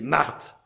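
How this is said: The name is said in a stern, commanding tone. A God who commands and must be respected. "Le premier Marthe, c'est l'Ancien Testament... le Dieu qui peut se mettre en colère"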